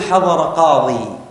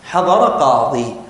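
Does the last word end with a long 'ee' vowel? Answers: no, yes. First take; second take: yes; yes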